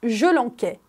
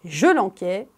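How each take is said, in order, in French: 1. La consonne du milieu du verbe est un son k dur. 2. La consonne du milieu du verbe est un son k dur.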